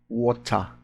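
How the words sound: It is said with a British accent.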